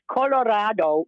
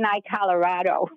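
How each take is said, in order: First: It is pronounced with Spanish sounds. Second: It is pronounced like the English state name. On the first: It means red. The speaker calls it right. "It's Colorado, which in Spanish means red" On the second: It names the American state. The speaker calls it wrong. "He kept saying iColorado, like the state"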